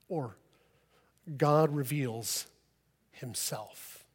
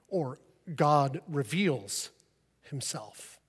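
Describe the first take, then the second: First: The word himself is stressed. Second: The word reveals is stressed. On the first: It points to the Son. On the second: It points to the Holy Spirit.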